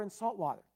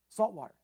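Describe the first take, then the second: First: Said in the usual way. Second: Salt water repeated louder, leaning on salt; stress on salt water. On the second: Shown as a demonstration. Preacher stressing that one spring cannot give salt water, emphatic. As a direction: hit salt water again to drive it home.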